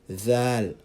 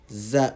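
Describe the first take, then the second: First: It begins with a voiced th sound. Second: It begins with a buzzing z sound. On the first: The speaker calls it right. "It's pronounced like the th sound in the word the" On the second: The speaker calls it wrong. "It's pronounced as za with the z sound, but that's the wrong pronunciation of the letter"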